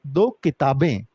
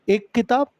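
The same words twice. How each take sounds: First: "दो किताबें" dropping low to finish; counting demo, plural. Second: "एक किताब" pitched high, open for the plural; counting demo, singular. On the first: Teacher completing the count for children, low falling answer. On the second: Teacher showing children how to count aloud, high first item. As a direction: count out "एक किताब" on a higher note. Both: Shown as a demonstration. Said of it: "गिनती लगा के बोल के देखा करो".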